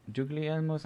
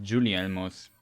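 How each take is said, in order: First: Guglielmo's with the middle G sounded, "GOOG-lee-EL-mos"; unsure, higher try at Guglielmo's, G voiced before the L; hard G pronunciation. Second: Guglielmo's with the G silent, "joo-lee-EL-mos". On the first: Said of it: "not sure how it's pronounced". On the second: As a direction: drop the G before the L in Guglielmo's. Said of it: "the G is silent". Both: Shown as a demonstration.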